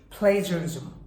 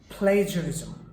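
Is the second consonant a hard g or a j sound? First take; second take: j sound; j sound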